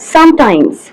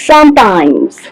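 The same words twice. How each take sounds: First: The word is said at a normal, even pace. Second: A sound in the word is stretched out long. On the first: This is the word the speaker intends to say. The speaker calls it right. "પેશન્ટને બોલવું છે sometimes" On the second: This shows a stammering prolongation. The speaker calls it wrong. "patient will speak like this"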